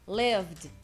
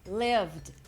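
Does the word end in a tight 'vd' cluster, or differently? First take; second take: vd cluster; vd cluster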